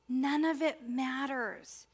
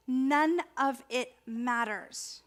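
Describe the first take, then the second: First: None of it matters again slowly, each word weighted; slow repeat. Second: None of it matters, slow with weight on none; slow emphatic. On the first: Minister repeating to the congregation that none matters. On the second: Minister stressing to her congregation that none matters. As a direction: lean on none, slowly. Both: Shown as a demonstration. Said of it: "I'm gonna say it again because it's really important".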